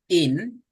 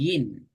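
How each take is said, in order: First: இன் as a clean "in", starting on the vowel; alif "in". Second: இன் said as "yin", with a "y" glide. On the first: Teacher showing how alif sounds, clean vowel-first "in". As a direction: say இன் with no "y" glide. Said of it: "அலிஃப் வந்தா". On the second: Teacher showing how ya sounds, gliding "yin". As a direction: start இன் with a raised-tongue "y". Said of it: "யா வந்தா". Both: Shown as a demonstration.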